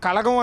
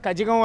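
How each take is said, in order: First: The middle consonant is an l sound. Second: The middle consonant is a j sound. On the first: This is how Tamil speakers say it. "తమిళంలో పలకటం మాత్రం దాన్ని మున్నేట్ర కళగం అని పలుకుతూ ఉంటారు" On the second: This is how it reads from the English spelling. "English ప్రకారం చదివితే మున్నేట్ర కజగం అని వస్తుంది"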